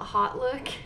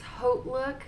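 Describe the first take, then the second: First: The first part is said like 'hot'. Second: The first part is not said like 'hot'. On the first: The speaker calls it wrong. "I call it Hot Look" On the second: The speaker calls it right. "My daughter corrects me. It's HauteLook"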